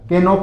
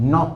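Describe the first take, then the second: First: The word starts with a k sound. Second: The word starts with an n sound. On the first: The speaker calls it wrong. "के नॉक नहीं होता है" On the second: The speaker calls it right. "नॉक होता है"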